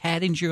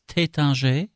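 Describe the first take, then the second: First: It is said in an East Coast American accent. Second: It is said with a French pronunciation. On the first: "Tattinger on the East Coast" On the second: "It's Tattinger in French"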